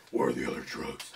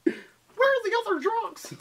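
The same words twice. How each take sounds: First: Very low, hushed, rasping vigilante; low superhero interrogation voice; Batman. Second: High, slow, laughing voice; squeaky send-up of the line; high silly voice. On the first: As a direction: growl it deep and quiet. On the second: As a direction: stretch it out high and goofy. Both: Acted.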